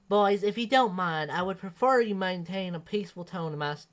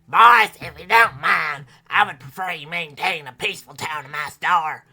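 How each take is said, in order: First: It is read in the narrator's own voice. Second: It is read in Penelope's character voice.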